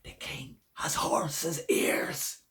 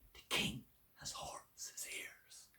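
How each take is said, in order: First: It is a loud whisper. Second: It is a soft whisper.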